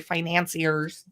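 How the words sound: The word is said in an American way.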